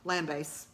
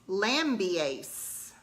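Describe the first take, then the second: First: The middle 'i' sound is dropped. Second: The middle 'i' sound is pronounced. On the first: "I just ignored that I" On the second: "according to the audiobook narrator"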